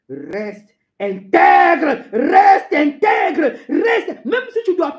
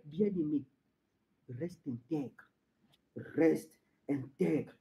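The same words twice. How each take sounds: First: Loud, stretched cries climbing in pitch; shouted exhortation. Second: Low, very soft plea; hushed exhortation. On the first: Preacher urging the beloved to stay intact, shouting. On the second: Preacher urging the beloved to stay intact, hushed. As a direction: urge it almost under the breath. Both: Acted.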